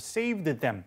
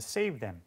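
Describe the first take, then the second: First: The final d of saved is clearly pronounced. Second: The final d of saved is dropped entirely. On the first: The speaker calls it wrong. "saved them 이렇게까지 안 찾고" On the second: The speaker calls it right. "그냥 save them"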